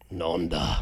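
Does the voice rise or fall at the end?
fall. The voice falls at the end.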